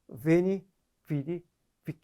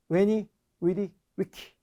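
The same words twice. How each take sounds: First: It uses the more familiar pronunciation. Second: It uses the less familiar pronunciation. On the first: "좀 더 익숙한 발음으로" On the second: "우리 박력 넘치는"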